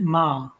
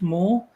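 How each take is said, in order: First: The name ends in an 'ah' sound. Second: The name ends in an 'oor' sound. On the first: The speaker calls it wrong. "I would have pronounced it Ma" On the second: The speaker calls it right. "It's pronounced Moore"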